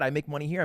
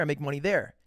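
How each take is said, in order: First: Rising tune on "here" in a mock brag; mock bragging. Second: Falling tune on "there" to close the brag; mock bragging. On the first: Imitating a braggart, tune rises on "here". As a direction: lift "here" up like a boast. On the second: Imitating a braggart, tune falls on "there". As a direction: drop "there" down to finish. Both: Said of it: "everybody kinda big dicks himself".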